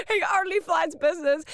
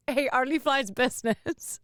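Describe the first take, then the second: First: Hammed-up gossip; mock diva emphasis. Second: Said in the usual way. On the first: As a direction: relish the diva detail. Gossiping about [name].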